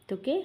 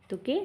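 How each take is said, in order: The two takes are said the same way.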